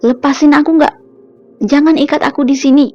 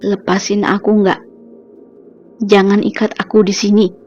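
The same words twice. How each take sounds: First: It is said louder and higher. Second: It is said quietly but harshly.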